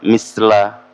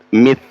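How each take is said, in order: First: The consonant is a hissing s sound. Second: The consonant is a th sound between teeth. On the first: The speaker calls it wrong. "ada yang menyebut dengan seperti menyebut sin" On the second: The speaker calls it right. "ujung lidah kita nempel ke gigi seri"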